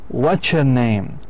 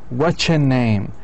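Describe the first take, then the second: Both takes have the same delivery.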